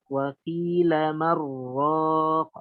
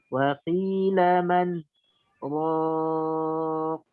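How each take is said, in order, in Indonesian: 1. Kata-katanya menyambung tanpa jeda. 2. Ada jeda singkat antara man dan raq. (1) "Seharusnya kan kita baca waqila waqila man waqila marraq" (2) "kita membaca dengan saktah sehingga kita berhenti man raq"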